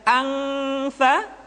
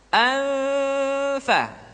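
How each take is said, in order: First: The nasal is pronounced as an ng sound. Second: The nasal is hidden toward the f sound. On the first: The speaker calls it wrong. "Jadi tidak" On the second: The speaker calls it right.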